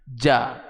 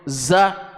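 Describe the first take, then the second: First: It begins with a j sound. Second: It begins with a buzzing z sound. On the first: The speaker calls it wrong. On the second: The speaker calls it right.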